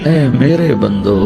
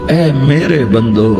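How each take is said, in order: Both takes have the same delivery.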